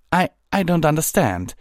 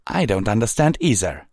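First: High, loud, stammered confusion; bewildered. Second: Mild angry shout. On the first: Twilight replies to the captain's warning, high and bewildered. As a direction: stammer it out high, not understanding. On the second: Unicorn behind the captain cuts in, mildly shouting. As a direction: cut in with an understated shout. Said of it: "the unicorn behind him shouted". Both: A narrator's reading.

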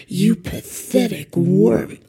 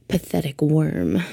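First: Drawn-out sinister demon snarl; slow demon voice. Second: Said in the usual way. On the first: Acted. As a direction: stretch it out like a fiend. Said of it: "drop the voice". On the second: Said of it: "where was I".

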